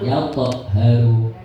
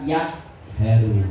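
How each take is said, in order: First: The middle consonant is released with a bounce. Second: The middle consonant is cut off without release. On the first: The speaker calls it right. "dipantulkan, mantul" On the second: The speaker calls it wrong. "Jangan dibaca yak haru"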